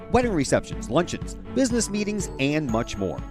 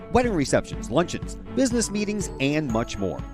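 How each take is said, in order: Both takes have the same delivery.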